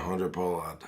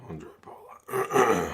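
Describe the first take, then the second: First: Said in the usual way. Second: Andre Pollard slow, whispered and loud-breathed; voice gives out. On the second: Real, not acted. Calling the kicker for stream viewers, voice failing to a whisper. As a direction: croak Pollard out on a voice that's gone. Hoarse voice gives out mid-commentary.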